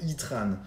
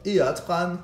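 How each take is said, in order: First: It begins with a single 'ee' vowel sound. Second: It begins with two separate vowels, 'é' then 'a'. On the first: The name comes from the English word for heat. "ça doit être Itran" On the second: The name is read the French way. "à la française et de dire Eatran, un E et un A à la suite"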